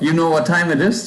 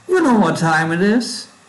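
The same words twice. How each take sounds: First: It is said in a plain, neutral voice. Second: It is said in a put-on character voice.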